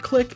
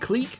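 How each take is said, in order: First: It is said the speaker's usual non-Canadian way. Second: It is said the French-derived Canadian way. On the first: This is how the speaker grew up saying it. "I grew up with everyone, including myself, saying clique" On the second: This is how the show's characters say it. "the show says clique like clique"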